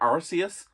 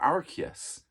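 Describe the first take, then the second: First: The name begins with an ars sound. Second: The name begins with an ark sound. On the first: "with a hard arse" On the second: "hard arc"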